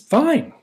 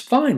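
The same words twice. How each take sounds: First: It is said calmly, without tension. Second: It is said with an irritated edge.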